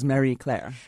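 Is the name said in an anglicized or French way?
anglicized. The name is said in an anglicized way.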